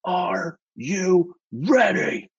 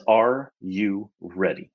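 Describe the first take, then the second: First: Very slow, high-pitched mock scream; imitated scream. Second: Slow, measured question; angel's voice retold. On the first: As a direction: stretch each word into a strained mock yell. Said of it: "he screams in my face". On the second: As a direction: space out each word at normal volume. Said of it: "It's the best way I can describe it".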